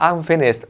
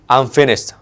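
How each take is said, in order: First: It is said in a happy, relieved tone. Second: It is said in a fed-up, exasperated tone. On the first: The task has been completed. "kalau lagi seneng berarti dia udah kelar tugasnya" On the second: The person has had enough of something. "itu maksudnya nanti adalah dia udah muak sama ini"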